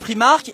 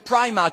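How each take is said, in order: First: It is said with a French accent. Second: It is said with an English accent.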